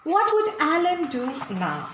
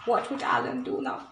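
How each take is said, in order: First: Said in the usual way. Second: Soft breathy whisper of "What would Alan do now?". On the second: Shown as a demonstration. Reader drawing the children in with a secret whisper. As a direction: lean in and whisper the question. Repeated question, second whispered.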